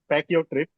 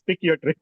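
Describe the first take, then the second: First: The first word sounds like 'pack'. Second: The first word sounds like 'pick'. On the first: The speaker calls it wrong. "people do pronounce like pack your trip" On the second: The speaker calls it right. "I have to correct them. It is pick your trip"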